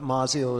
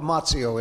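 First: The double z is said like a plain z. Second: The double z is said like ts in pizza. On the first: This is an accepted variant. "Mazzio is completely acceptable" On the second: This is the original family pronunciation. "But Mazzio is correct, yes. Like pizza. Two Z's"

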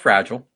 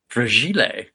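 First: The word is pronounced in plain English style. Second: The word is pronounced in a mock Italian style.

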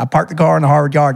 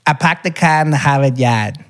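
First: It is said in a Southern US accent. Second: It is said in a northern Boston accent.

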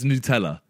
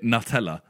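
First: The first syllable sounds like 'noo', Italian style. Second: The first syllable sounds like the word 'nut'. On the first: It follows the Italian pronunciation. "But it's Nutella" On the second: It is named after the nut. "That's what you would say because it's nut"

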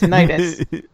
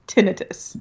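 First: The stress is on the second syllable. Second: The stress is on the first syllable. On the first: This is how people who have the condition say it. "everybody who has it pronounces it tinnitus" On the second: This is how doctors say it. "but doctors pronounce it tinnitus"

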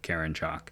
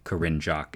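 First: The first name sounds like 'Karen'. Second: The first name ends with a stressed 'rinne' sound. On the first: The speaker calls it wrong. "instead of Karen Jock" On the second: The speaker calls it right. "think to say Corinne Jock"

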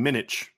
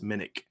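First: The name ends with an 'itch' sound. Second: The name ends with an 'ick' sound. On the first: The speaker calls it wrong. "I've been saying Minich. Because it's I-C-H. The sound, I mean, sandwich" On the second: The speaker calls it right. "ick is I-C-K, but it is what it is. It's Minnick"

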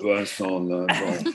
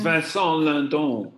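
First: It is said in a deep, growling voice. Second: It is said in a normal voice.

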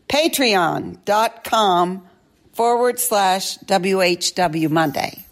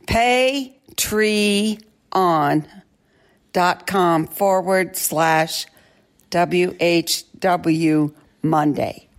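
First: It is read at a faster pace. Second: It is read at a slower pace.

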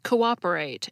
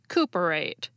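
First: The second o starts a new syllable. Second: The two o's merge into one sound. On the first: The speaker calls it right. "the letter starts a new syllable" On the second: The speaker calls it wrong. "not cooperate"

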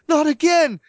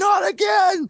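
First: It is said in stunned shock. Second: It is screamed in anger. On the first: The person cannot believe what happened. "shock hits him and his eyes widen" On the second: The person is furious at what happened. "a total moment of rage, screaming"

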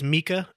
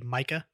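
First: The first vowel is an 'ee' sound. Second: The first vowel is not an 'ee' sound. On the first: The speaker calls it right. "It is Mika" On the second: The speaker calls it wrong. "a lot of people say Mika"

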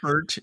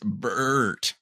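First: The vowel is short and plain. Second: The vowel is drawn out and long. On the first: The speaker calls it wrong. "Not Bert" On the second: The speaker calls it right. "I think there's like two or three U's in there"

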